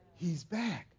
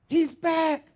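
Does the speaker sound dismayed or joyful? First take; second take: dismayed; joyful. First: It is said with shocked dismay. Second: It is said with joyful excitement. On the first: The return is alarming news. "Same words, different sentiment" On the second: The return is welcome news. "will glorify and say hallelujah and rejoice and say"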